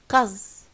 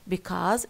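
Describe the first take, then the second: First: The first syllable is dropped. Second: The first syllable is pronounced in full. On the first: "it becomes uh, cause" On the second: "dropping some prefixes as in because it becomes"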